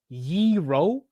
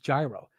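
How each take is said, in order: First: It sounds like the currency word euro. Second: It does not sound like the currency word. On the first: This is how other people say the word. "Like like the currency?" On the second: This is how the speaker has always said the word. "It's been gyro for the majority of my life"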